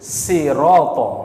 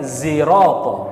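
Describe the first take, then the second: First: The word begins with an s sound. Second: The word begins with a z sound. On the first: "boleh dibaca sin" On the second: "dibaca zai"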